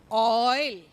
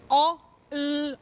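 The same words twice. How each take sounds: First: Said in the usual way. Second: "O", a gap, then "il"; sounded out. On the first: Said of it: "then the whole word". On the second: Shown as a demonstration. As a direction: split "O, il" into separate sounds. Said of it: "say the oi and then the whole word".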